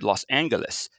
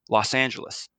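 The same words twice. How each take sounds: First: The g in Angeles sounds hard, like in go. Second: The g in Angeles sounds soft, like j. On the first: This is how one man preferred it. "he was a hard G man. He said" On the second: This is the official pronunciation. "they proclaimed an official pronunciation of the city, and the winner was"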